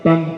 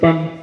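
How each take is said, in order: No difference in how they are said.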